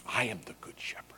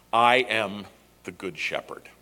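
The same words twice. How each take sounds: First: "I am the good shepherd" breathed as an unvoiced whisper, much softer. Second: Said in the usual way. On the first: Shown as a demonstration. Pastor repeats Jesus' words to the congregation as a hushed whisper. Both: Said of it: "is the statement".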